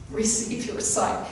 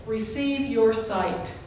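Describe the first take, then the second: First: Simple command again. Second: Slow, even, unhurried command; simple quiet command. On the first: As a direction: let it fall gently. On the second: Jesus healing the blind man, slow and simple. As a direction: say it simply and slowly. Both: Shown as a demonstration. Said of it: "he simply said this".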